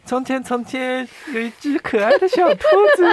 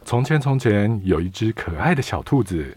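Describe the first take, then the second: First: It is said in a cute voice. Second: It is said in an ordinary voice.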